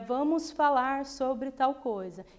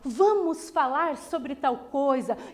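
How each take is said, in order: First: It is said flatly, without acting. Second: It is said expressively, with acted intonation.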